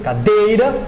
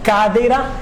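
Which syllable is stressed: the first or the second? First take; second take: second; first. First: The stress is on the second syllable. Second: The stress is on the first syllable. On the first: The speech flows smoothly. The speaker calls it right. "Se eu coloco energia no D" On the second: The speaker gets stuck. The speaker calls it wrong. "na primeira sílaba do cadeira"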